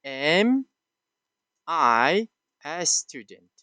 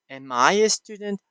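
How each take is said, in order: First: Slow, drawn-out question with falling end; question tune. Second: Said in the usual way. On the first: Shown as a demonstration. Teacher reading the question slowly for students. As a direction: read the question slowly, each word apart. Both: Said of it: "You can add".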